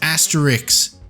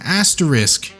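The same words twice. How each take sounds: First: The word ends with a 'rix' sound. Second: The word ends with a 'risk' sound. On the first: The speaker calls it wrong. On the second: The speaker calls it right.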